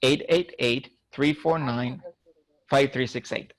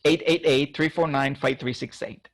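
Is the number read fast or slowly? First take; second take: slowly; fast. First: The number is read at a slower pace. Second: The number is read at a quicker pace.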